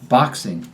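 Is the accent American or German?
American. Said with an American short O vowel. "In the American accent, the short O is pronounced"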